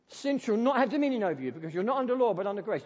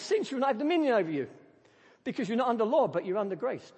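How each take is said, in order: First: It sounds stern and scolding, like a warning. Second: It sounds joyful and excited, like a promise.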